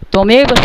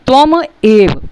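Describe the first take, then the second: First: The two words run together without a break. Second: The two words are split with a break. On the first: "मिले हुए हैं" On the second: "अब आप हमको शब्दों को तोड़ेंगे"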